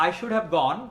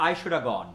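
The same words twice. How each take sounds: First: Said in the usual way. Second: I should have gone with "should have" blended into "shoulda"; relaxed shoulda. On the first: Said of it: "it means I should have gone". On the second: Shown as a demonstration. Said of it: "should have হয়ে গেল shoulda".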